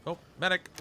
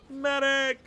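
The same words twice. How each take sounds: First: Said in the usual way. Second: Loud, high battlefield cry for medic; man down shout. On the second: Pretend. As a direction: yell it like a soldier hit. Calling out like wounded soldier.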